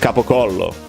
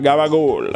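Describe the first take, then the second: First: All syllables are said, ending in a vowel. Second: Consonants are softened and the final vowel is dropped. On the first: The speaker calls it right. "Because it's capocollo" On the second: The speaker calls it wrong. "that's why you guys say gabagool"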